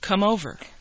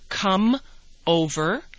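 First: The two words run together as one. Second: The two words are said separately.

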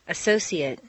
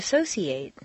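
First: The final syllable has a reduced vowel. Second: The final syllable has a full 'ate' vowel. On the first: It is used as a noun or adjective. "completely reduced" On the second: It is used as a verb. "it's a full A sound"

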